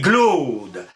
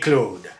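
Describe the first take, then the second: First: The name begins with a voiced g sound. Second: The name begins with a voiceless k sound. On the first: This is the older seventeenth-century pronunciation. "au dix-septième siècle, on disait" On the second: This is the later pronunciation that follows the spelling. "l'Académie donnera raison à ceux qui prononcent"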